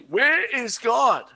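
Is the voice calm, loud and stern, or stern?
loud and stern. It is asked loudly in a stern voice.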